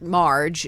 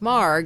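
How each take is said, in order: First: The name ends with a soft j sound. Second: The name ends with a hard g sound. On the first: The speaker calls it wrong. "It gets mispronounced Marge" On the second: The speaker calls it right. "instead of Marg"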